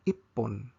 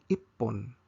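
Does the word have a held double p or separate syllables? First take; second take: double p; double p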